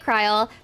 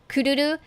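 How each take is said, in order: First: The name is said in its shortened English form. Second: The name is said in its full Japanese form. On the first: The speaker calls it wrong. "People will probably say Kryl" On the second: The speaker calls it right. "the Japanese pronunciation of her name"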